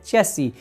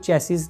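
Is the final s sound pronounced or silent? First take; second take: silent; pronounced. First: The word ends without any s sound. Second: The word ends with an audible s sound. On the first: The speaker calls it right. "अंत का एस होता है वह silent होता है" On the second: The speaker calls it wrong. "हम इसको चेसिस नहीं बोलते हैं"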